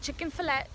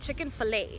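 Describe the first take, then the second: First: It is said as two ordinary words. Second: It ends in a stressed 'ay' sound. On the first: The ordinary words for the food. "as opposed to saying chicken fillet" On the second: The name of the restaurant brand. "you call it chicken fillet. And the the letter A is emphasized"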